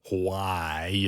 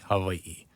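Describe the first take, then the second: First: The middle consonant is a strong English w. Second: The middle consonant is a softened v. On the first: "It's like extra English W sound" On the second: "you soften the V sound"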